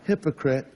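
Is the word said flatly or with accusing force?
flat. The word is said flatly, without force. It is a plain mention without insult. The speaker calls it wrong.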